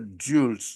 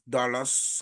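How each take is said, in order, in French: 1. Le nom se prononce à la française. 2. Le nom se prononce à l'anglaise. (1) "en français, Dulles" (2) "Dallas en anglais"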